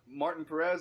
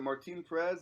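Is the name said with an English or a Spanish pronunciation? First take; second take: English; Spanish. First: The name is said with an English pronunciation. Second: The name is said with a Spanish pronunciation.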